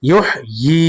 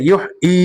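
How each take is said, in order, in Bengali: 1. দ্বিতীয় সিলেবলটি 'y' ধ্বনি দিয়ে শুরু হয়। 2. দ্বিতীয় সিলেবলটি গ্লোটাল স্টপ দিয়ে শুরু হয়। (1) "ইয়া ইয়াজের ই" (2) "অনেকে আমরা উচ্চারণ করি ইউহ ই ই পড়লে কিন্তু হামজা ইয়াজের ই হয়ে যাচ্ছে"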